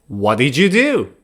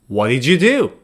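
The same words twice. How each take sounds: Both takes have the same delivery.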